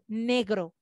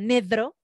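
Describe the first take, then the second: First: The middle consonant is a G sound. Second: The middle consonant is a D sound. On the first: The speaker calls it right. "en vez de decir negro" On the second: The speaker calls it wrong. "digo nedro, con D"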